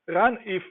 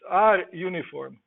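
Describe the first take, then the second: First: It is said as one blended word. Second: The letter R is said separately first. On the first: The speaker calls it wrong. "many people say RUNIF" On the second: The speaker calls it right. "but it's R uniform"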